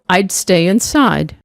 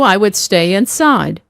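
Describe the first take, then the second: First: I would is shortened to one word, I'd. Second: I would is said as two full words.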